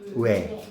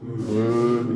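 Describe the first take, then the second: First: The lips move, making a gliding diphthong. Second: The lips stay still, making one steady vowel. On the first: "여러분들은 요렇게 발음했어요" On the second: "입술 바뀌지 마. 으, 이렇게 해야 돼"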